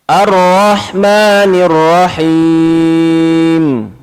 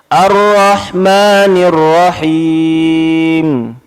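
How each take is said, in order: No difference in how they are said.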